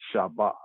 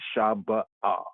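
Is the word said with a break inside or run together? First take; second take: run together; break. First: All syllables run together without a break. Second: A short break comes before the final 'ah'. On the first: "or altogether" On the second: "It can be a little space"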